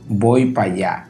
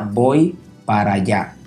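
First: The word para is shortened to pa. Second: The word para is said in full. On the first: "pero en buen dominicano" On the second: "La pronunciación correcta sería"

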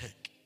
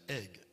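First: The word begins with an added h sound. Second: The word begins with a vowel, no h. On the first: The speaker calls it wrong. "not egg" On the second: The speaker calls it right. "I said egg, ... There is no H factor here"

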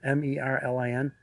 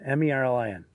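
First: The letters are said slowly. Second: The letters are said fast.

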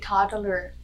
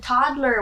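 First: The word is split into separate parts. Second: The word is said as one smooth unit. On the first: The speaker calls it wrong. "Why are you separating the word?" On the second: The speaker calls it right. "it's a toddler"

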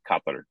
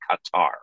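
First: The name is said with Arabic pronunciation. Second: The name is said with common English pronunciation. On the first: "the Arabic way to say it is Qatar" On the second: "the nation that most English speakers say Qatar"

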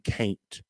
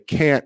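First: The vowel glides into a y-like sound. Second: The vowel is a plain single sound. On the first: The speaker calls it right. "put an I or a Y after every A" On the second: The speaker calls it wrong. "when you say can't"

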